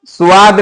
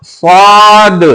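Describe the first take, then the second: First: "स्वाद" short, as "सुवाद"; wrong thin स्वाद. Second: "स्वाद" as one heavy, long rounded syllable; thick स्वाद. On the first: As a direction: say "स्वाद" lightly in two quick syllables, su-aad. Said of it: "स्वाद नहीं बोलना". ("स्वाद" को पतला "सुवाद") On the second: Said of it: "क्या बोलना है". (मोटा, खींचा हुआ "स्वाद") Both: Shown as a demonstration.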